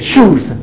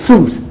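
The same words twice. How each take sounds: First: The word begins with a sh sound. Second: The word begins with a plain s sound. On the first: The speaker calls it right. "You say shoes" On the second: The speaker calls it wrong. "people who can't pronounce shoes... they say shoes"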